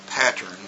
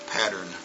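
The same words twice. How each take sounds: First: The middle consonant is a crisp T sound. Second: The middle consonant is a soft D-like tap. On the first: "the real word is pattern, P A T T E R N" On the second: "it's going to sound like pattern"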